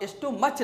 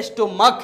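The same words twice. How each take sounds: First: स्टोमच closing on a "ch" sound; wrong pronunciation. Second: स्टोमक closing on a firm "k"; स्टोमक with CH sounded as K; correct pronunciation. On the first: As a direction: say स्टोमच with final च. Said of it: "स्टोमच नहीं है". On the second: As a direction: stress the corrected स्टोमक, final क. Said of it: "तो ये स्टोमक है". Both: Shown as a demonstration.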